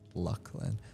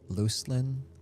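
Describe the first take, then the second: First: The first syllable sounds like luck. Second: The first syllable sounds like loose. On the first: "I know it's Lucklin" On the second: "You might think loose"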